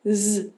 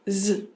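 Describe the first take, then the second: The two takes are said the same way.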